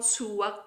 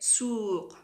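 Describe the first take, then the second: First: A w sound is said in the middle. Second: There is no w sound in the middle. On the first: The speaker calls it wrong. "not suwaq. I don't pronounce well in the middle" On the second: The speaker calls it right. "We say suq"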